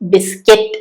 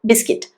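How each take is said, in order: First: The second syllable sounds like 'cut'. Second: The second syllable sounds like 'kit'. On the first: The speaker calls it wrong. "ബിസ്ക്കറ്റ് അല്ല" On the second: The speaker calls it right. "ബിസ്കിറ്റ് എന്നാണ്"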